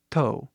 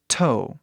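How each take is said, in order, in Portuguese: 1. O T é leve e suave. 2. O T é forte e áspero. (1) "Mais leve, mais suave até" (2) "Vê esse T, né? Bem forte assim"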